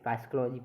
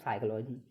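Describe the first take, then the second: First: The word begins with a sounded p. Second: The word begins with an s sound. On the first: The speaker calls it wrong. "पाइस्कोलॉजी नहीं" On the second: The speaker calls it right. "इसको बोलेंगे बोलो साइकोलॉजी"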